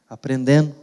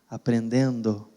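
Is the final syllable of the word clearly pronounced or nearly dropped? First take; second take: nearly dropped; clearly pronounced. First: The final syllable is nearly dropped. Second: The final syllable is clearly pronounced.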